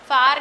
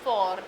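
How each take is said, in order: First: The vowel sounds like the 'a' in far. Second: The vowel sounds like the 'o' in for. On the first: The speaker calls it wrong. "फार नहीं" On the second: The speaker calls it right. "इसका pronunciation फॉर होता है"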